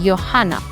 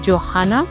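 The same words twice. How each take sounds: First: It begins with a 'y' as in 'yes'. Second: It begins with a 'j' as in 'jam'. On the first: The speaker calls it right. "you say Johanna" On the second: The speaker calls it wrong. "you don't say Johanna"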